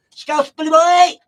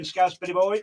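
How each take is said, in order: First: Loud, high, slow drawn-out name call; big hype shout. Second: Said in the usual way. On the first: Real, not acted. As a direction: belt the name out like a ring announcer. DJ hyping his brother-in-law.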